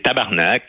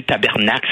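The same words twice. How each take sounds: First: "tabarnak" said as /tabaʁnak/, short and clipped; Québécois tabarnak. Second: Said in the usual way. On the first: Shown as a demonstration. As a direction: say "tabarnak" the Quebec way, not tabernacle. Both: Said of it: "c'est tabarnak".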